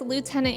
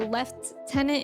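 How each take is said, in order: First: It is said the American way, without an f. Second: It is said the British way, with an f. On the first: "in the U S" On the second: "in the U K"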